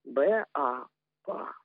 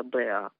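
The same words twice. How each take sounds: First: Letter names "Б", "А" said apart, then blended into "па"; incorrect letter-by-letter reading. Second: "Б, А" as two letter names, "бэ-а", never merged; letter names left unblended. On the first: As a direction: spell out "Б", "А" by name, pause, land on "па". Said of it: "родители учат неправильно". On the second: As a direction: say "Б" as "бэ", then a separate "А". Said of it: "Ну, давайте послушаем. Если Б, А, то и получится". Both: Shown as a demonstration.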